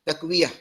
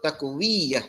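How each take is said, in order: First: The y sound is short and single. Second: The y sound is doubled and held long. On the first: The speaker calls it right. "Takwiyah gitu" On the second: The speaker calls it wrong. "Kesalahan yang banyak berlaku sebut takwiyah, salah"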